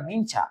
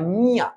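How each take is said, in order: First: It has an 'nch' sound in the middle. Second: It has a plain 'y' glide in the middle. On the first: The speaker calls it wrong. "আমরা অনেকে বলি এটা মিনচা, এটা মিনচা না" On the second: The speaker calls it right. "এটার উচ্চারণ হচ্ছে মিয়া"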